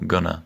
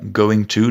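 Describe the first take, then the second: First: The words are reduced and run together. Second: Both words are said fully and separately. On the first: "devient souvent gonna" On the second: "going to devient souvent gonna"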